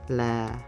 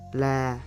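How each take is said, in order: First: The pitch is low and lowered. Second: The pitch stays flat in the mid range. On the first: "This tone gives a low pitch" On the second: "This is unmarked"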